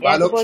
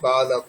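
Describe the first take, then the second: First: The word ends on the final consonant. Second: The word ends with a short 'a' vowel. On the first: The speaker calls it wrong. "বালক শব্দ নয়" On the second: The speaker calls it right. "শব্দটা হবে বালক"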